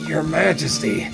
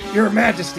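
First: It is said quietly and hesitantly. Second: It is said louder.

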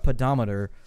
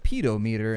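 First: The word is said the usual way. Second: The word is split as pedo meter. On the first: It is a device that counts steps. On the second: It is a joke reading of the word.

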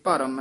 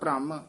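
First: A short vowel separates bh from r. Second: The bh and r join with no vowel between. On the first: "ਇੱਥੇ ਭਰਮ ਹੈ। ਰਾਰਾ ਪੂਰਾ ਉਚਾਰਨ ਕਰਨਾ ਹੈ" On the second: "ਉਹ ਹੇਠਾਂ ਰਾਰਾ ਹੋਵੇ ਤਾਂ ਭ੍ਰਮ"

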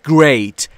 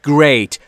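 Both takes have the same delivery.

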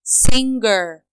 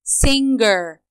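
The two takes are said the same way.

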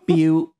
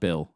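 First: The word ends with a U vowel. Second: The word ends with an L sound. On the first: The speaker calls it right. "it's B-I-U" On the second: The speaker calls it wrong. "It's not Bill"

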